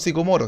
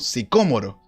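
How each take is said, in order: First: The stress falls on the third syllable. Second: The stress falls on the second syllable. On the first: The speaker calls it wrong. "no a un árbol sicomoro" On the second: The speaker calls it right. "sino que a un árbol sicómoro"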